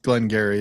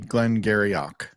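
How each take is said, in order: First: The name ends without any 'och' sound. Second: The name ends with an added 'ock' sound. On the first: The speaker calls it wrong. "It shouldn't be pronounced Glengarry" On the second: The speaker calls it right. "It should be Glengarryock"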